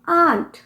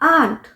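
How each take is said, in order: First: The vowel is a long open 'ah' sound. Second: The same.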